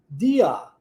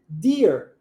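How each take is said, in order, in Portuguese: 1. O som final do r é aberto, parecido com uma vogal. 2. O som final do r é fechado e forte. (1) "No inglês britânico, deer. Viu como é que é aberto?" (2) "em inglês americano a gente pronuncia deer"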